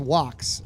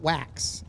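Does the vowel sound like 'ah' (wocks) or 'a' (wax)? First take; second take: ah; a. First: The vowel is an open 'ah', like 'wocks'. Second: The vowel is a flat 'a', like 'wax'. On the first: The speaker calls it right. "It's wax" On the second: The speaker calls it wrong. "not wax"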